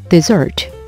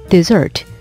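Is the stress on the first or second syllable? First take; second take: second; second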